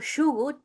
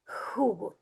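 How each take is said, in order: First: The word begins with an 'sh' sound. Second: The word begins with an 'h' sound. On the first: "instead of shugut" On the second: "replaced it with the J sound"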